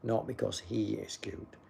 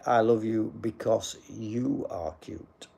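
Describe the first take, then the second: First: "he" picked out as the wrong word; stress on HE. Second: "you are cute" slowly, with weight on "you"; stress on YOU. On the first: Streamer rejecting a viewer's wording, stress on "he". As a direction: set "he" apart in a softer correction. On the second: Streamer correcting a viewer's wording, stress on "you". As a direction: lean on the second "you", slowly. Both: Shown as a demonstration. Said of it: "you should say".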